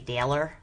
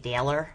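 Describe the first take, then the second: First: It is said with a Midwest accent. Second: It is said with a Midwest accent.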